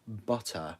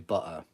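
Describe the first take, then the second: First: The middle t sound is fully pronounced. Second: The middle t sound is swallowed.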